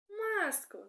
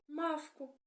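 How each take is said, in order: First: The middle consonant is an s sound. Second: The middle consonant is a v sound. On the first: The speaker calls it right. "звісно" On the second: The speaker calls it wrong. "Я буду погано вимовляти деякі звуки"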